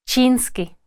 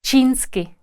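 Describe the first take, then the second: No difference in how they are said.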